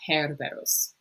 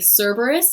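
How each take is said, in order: First: The first c is said as a hard k. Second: The first c is said as a soft s. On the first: This is the Latin pronunciation. "in Latin, we do pronounce that C as Cerberus" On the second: This is the English pronunciation. "in English we would say Cerberus"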